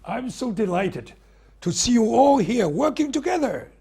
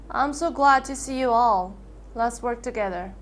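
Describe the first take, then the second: First: Passionate, higher and louder; enthusiastic. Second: Dull, flat tune, no feeling; emotionally flat. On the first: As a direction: burst with enthusiasm. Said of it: "Speaking with enthusiasm and passion". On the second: [name] showing flat emotionless greeting to the class. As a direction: say it without any enthusiasm. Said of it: "speaking with emotional flatness and dot intonation". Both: Shown as a demonstration.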